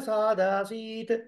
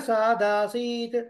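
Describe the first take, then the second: Both takes have the same delivery.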